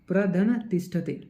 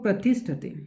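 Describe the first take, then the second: First: The prefix and verb are said separately. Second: The prefix and verb are joined together. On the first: The speaker calls it wrong. "आप ऐसा थोड़ी ना बोलेंगे प्रधन तिष्ठते" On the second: The speaker calls it right. "आप इसको संधि करके बोलेंगे"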